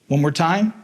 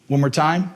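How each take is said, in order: Both takes have the same delivery.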